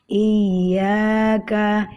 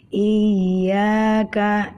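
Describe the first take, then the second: The two takes are said the same way.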